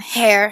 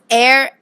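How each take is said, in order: First: The word begins with an 'h' sound. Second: The word begins with a vowel sound. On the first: The speaker calls it wrong. "added h to the beginning" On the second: The speaker calls it right. "words beginning with vowels, such as air"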